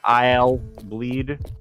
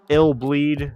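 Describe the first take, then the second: First: The first word sounds like 'I'll'. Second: The first word sounds like 'ill'. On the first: The speaker calls it wrong. "not I'll Bleed" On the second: The speaker calls it right. "Ill Bleed, not I'll Bleed"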